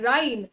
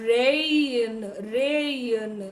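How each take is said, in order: First: The vowel sounds like 'eye'. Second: The vowel sounds like a long 'ay'. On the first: The speaker calls it wrong. "It's not ರೈನ್" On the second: The speaker calls it right. "It is ರೇಯನ್ ರೇಯನ್"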